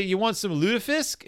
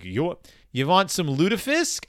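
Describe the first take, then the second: First: A lightly attempted Minnesota accent, sing-song and higher. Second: Said in the usual way. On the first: Host imitating Minnesotans offering lutefisk in Minnesota accent. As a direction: offer it up like a Minnesota local would. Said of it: "gonna try to do a Minnesota accent". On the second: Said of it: "even gonna try to do a Minnesota accent".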